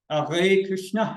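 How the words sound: It is said with an imitated French accent. "it's different when I'm in France"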